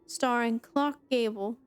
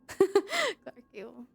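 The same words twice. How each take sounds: First: Said in the usual way. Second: A higher, slow laughing echo of the name Clark, stretched out; the speaker repeats Clark Gable mockingly, laughing at the name. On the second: Shown as a demonstration. Slow amused echo of Clark Gable. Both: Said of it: "That's funny".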